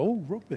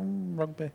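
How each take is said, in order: First: It is said in an excited, enthusiastic tone. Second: It is said in a bored, indifferent tone.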